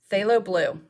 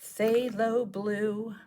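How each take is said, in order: First: Said in the usual way. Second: Phthalo said slowly as thay-lo, soft and drawn out; careful naming. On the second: Shown as a demonstration. Finding the paint and slowly sounding out its name. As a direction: stretch out Phthalo Blue slowly and quietly.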